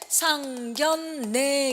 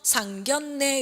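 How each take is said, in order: First: The middle consonants blend into an l sound. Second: The middle consonant stays an n sound. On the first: The speaker calls it wrong. "상견례 이렇게 되죠" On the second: The speaker calls it right. "유마 안 일어나고요... 상견례 이렇게 발음해야 되죠"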